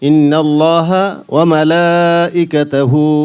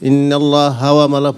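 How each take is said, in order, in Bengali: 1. ha ধ্বনিটি Allah-এর সাথে জুড়ে যায়। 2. ha ধ্বনিটি wa-এর সাথে জুড়ে যায়। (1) "দুইটা শব্দের উচ্চারণ পৃথক হবে" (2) "ইন্নাল্লাহ হাওয়া মালা পড়ি আমরা সবাই"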